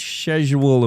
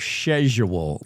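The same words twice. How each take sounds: First: Said in the usual way. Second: Schedule said shed-jool, soft sh start; mock British schedule with a sh sound. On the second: Host mocks the British schedule with a shed-jool sound. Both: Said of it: "I'm not talking about, like".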